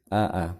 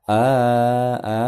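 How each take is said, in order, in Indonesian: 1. Vokalnya pendek dan terpotong. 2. Vokalnya ditarik panjang. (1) "tapi a a" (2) "bukan a a"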